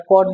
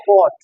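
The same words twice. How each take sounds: First: "caught" said the way the teacher rejects; rejected pronunciation. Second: "caught" said the way the teacher recommends; preferred pronunciation. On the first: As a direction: say "caught" as the form students should avoid. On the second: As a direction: say "caught" as the correct form. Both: Shown as a demonstration. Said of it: "আমরা caught বলি না".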